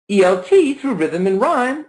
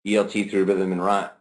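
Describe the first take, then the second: First: "E L T Through Rhythm and Rhyme" pitched high, keeping the stress beat; high, lilting tune on "E L T Through Rhythm and Rhyme", same stresses; high intonation. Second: "E L T Through Rhythm and Rhyme" dropped very low and softer, keeping the stress beat; low, level, quieter "E L T Through Rhythm and Rhyme", same stresses; low intonation. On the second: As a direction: drop the tune right down on "E L T Through Rhythm and Rhyme". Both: Shown as a demonstration. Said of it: "We could change the intonation".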